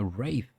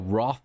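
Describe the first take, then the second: First: The vowel sounds like 'ay', rhyming with 'faith'. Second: The vowel sounds like 'ah', rhyming with 'cloth'. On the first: This is how it is actually pronounced. The speaker calls it right. "I didn't know you actually pronounced it that way" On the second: This is how the speaker always assumed it was said. The speaker calls it wrong. "I always thought it was a ro ro Roth?"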